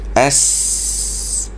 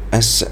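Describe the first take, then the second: First: The s sound is held out fully. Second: The s sound is released too quickly. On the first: The speaker calls it right. "kita sebutkan dia bagi habis-habis, jangan kita terlalu cepat lepas dia" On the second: The speaker calls it wrong. "takut-takut dia jadi as"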